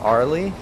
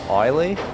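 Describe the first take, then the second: First: The r sound is clearly pronounced. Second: The r sound is dropped. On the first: The speaker calls it wrong. "instead of Arley" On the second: The speaker calls it right. "Australians don't really pronounce R's"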